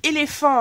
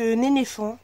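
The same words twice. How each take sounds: First: Said in the usual way. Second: "éléphant" playfully garbled into "nénéfant"; playful mispronunciation. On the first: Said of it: "je dis, c'est éléphant". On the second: Real, not acted. Vlogger twisting her words for fun, "éléphant" said as "nénéfant". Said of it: "j'aime bien, euh, détourner mes mots".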